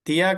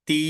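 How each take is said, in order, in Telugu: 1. ఇది 'ya' అనే వేరే శబ్దంతో ముగుస్తుంది. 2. ఇది ఒకే దీర్ఘ 'ee' అచ్చుతో ముగుస్తుంది. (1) "తియా కాదు"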